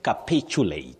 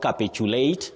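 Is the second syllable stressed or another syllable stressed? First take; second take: second; another. First: The stress falls on the second syllable. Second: The stress falls on a different syllable. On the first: The speaker calls it right. "the stress is on the second syllable for that word" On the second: The speaker calls it wrong. "Not capitulate"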